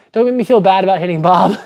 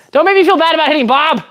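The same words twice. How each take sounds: First: Said in the usual way. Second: Higher, rushed comic whine of protest; mock protest. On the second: Streamer defends hitting Bob to viewers, high mock protest. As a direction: protest in a playful, high-pitched rush.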